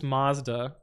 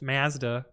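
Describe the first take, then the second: First: It is said with an American pronunciation. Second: It is said with a Canadian pronunciation. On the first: "in the U S this is Mazda" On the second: "in Canada it's Mazda"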